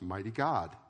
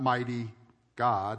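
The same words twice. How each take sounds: First: Mighty God is said without any pause. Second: There is a pause between mighty and God.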